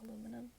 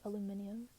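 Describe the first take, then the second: First: The word is said in the form aluminum. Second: The word is said in the form aluminium. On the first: This is how others say it. The speaker calls it right. "I started saying aluminum because that's how everybody else said it" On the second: This is the speaker's former pronunciation. The speaker calls it wrong. "I used to pronounce it aluminium"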